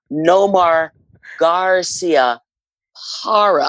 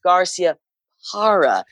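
First: "Garcia", then a held pause before "Parra", like a stadium call; dramatic pause. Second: "Garcia", short pause, then "Parra" falling; dramatic pause. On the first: Announcer showing her pause trick, announcer call with pause. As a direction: stretch the gap between "Garcia" and "Parra". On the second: Announcer repeating the name with her pause, pause before the surname. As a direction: leave a beat before "Parra". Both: Shown as a demonstration. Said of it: "I would always pause".

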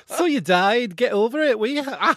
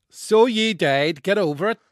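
First: Put-on loud, high, slipping into Scottish Northern English accent. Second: A hint of Northern English accent, slow. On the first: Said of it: "That's Scottish, but okay". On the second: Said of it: "read the intro again in a Northern accent".

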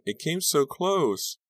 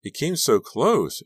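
First: High, slow tearful voice; slow, high, teary repeat. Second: High, slow tearful voice; slow, high, crying words. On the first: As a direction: repeat it, dazed and crying. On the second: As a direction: say it through tears, shaken. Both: A narrator's reading. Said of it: "Dawn was crying".

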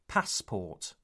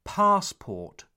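First: PASSPORT with a short 'a' as in cat. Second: PASSPORT with a long 'ah', as 'pahss-port'. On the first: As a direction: keep the first vowel of passport short. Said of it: "not passport". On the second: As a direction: open up the first vowel of Passport to 'ah'. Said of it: "The A sound is long". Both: Shown as a demonstration.

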